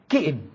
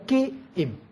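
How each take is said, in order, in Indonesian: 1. Dua suku kata itu diucapkan cepat dan digabungkan. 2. Dua suku kata itu diucapkan pelan dan terpisah. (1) "Itu dibaca cepat. Dibaca cepat, digabungkan kata itu" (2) "bukan kiim"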